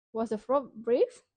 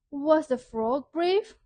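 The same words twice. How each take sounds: First: Said in the usual way. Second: Lively question. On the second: Shown as a demonstration. Teacher quizzes children on the story, lively. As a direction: pitch it up to draw the children in. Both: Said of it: "question number three".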